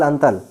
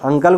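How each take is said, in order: First: The middle consonant is a t sound. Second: The middle consonant is a k sound. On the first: "अंतल अंतल" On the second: "वो दूसरा अंकल को क्या बोलेंगे"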